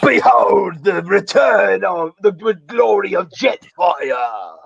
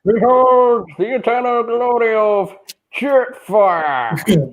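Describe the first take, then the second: First: Slow shouted Aussie robot; Australian Jetfire voice. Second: Put-on high, slow grand old robot; old man Jetfire voice. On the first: Retold or imitated. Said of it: "just with an Australian accent". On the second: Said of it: "old man Jetfire voice".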